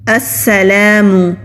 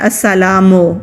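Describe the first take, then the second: First: The word ends with an 'u' vowel. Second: The word ends with an 'o' vowel. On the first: The speaker calls it right. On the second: The speaker calls it wrong.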